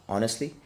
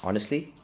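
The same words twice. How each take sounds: The two takes are said the same way.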